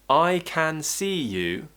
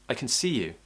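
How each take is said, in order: First: The word 'can' is said in full. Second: The word 'can' is reduced and weak.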